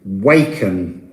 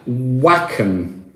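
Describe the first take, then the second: First: Waken with a long ay, like wake-en, low and falling; long a pronunciation. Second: Waken with a short flat a, like wack-en; short a pronunciation. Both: Shown as a demonstration. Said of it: "we don't know how you say these old Anglo-Saxon words".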